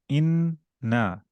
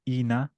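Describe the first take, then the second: First: The n sound is held long. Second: The n sound is short. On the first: The speaker calls it right. "Shadda, hold" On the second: The speaker calls it wrong. "Not ina"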